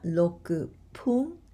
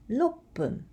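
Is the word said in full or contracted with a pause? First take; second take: full; contracted. First: Every syllable is said in full, with no catch. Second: It is contracted, with a short catch before p. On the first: The speaker calls it wrong. "it's not roku pun" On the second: The speaker calls it right. "with small short pause"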